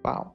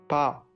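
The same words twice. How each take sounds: First: The word is said softly and timidly. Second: The word is said louder and more forcefully.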